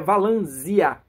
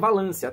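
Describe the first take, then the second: First: The consonant before the end sounds like Z. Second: The consonant before the end sounds like S. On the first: The speaker calls it right. "a pronúncia correta é Valanzia, com Z" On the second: The speaker calls it wrong. "provavelmente você vai dizer Valância"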